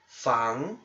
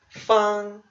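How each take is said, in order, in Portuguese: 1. É dito com o segundo tom. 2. É dito com o primeiro tom. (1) "é o segundo tom" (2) "esse caractere se lê no primeiro tom"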